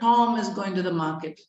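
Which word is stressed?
Tom. The word Tom is said louder and longer. "The stressed word is Tom"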